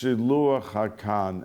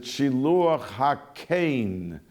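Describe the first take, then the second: First: The last word has an 'ah' vowel. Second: The last word has an 'ay' vowel. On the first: Most people say it this way. "commonly it's pronounced" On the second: A minority of people say it this way. "Some pronounce it"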